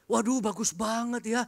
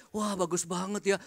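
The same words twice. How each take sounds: First: Higher, wide-eyed voice of the impressed driver; lightly voiced driver, amazed; awed driver. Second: Said in the usual way. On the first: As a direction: gasp at the fancy hotel room. Driver admiring hotel room.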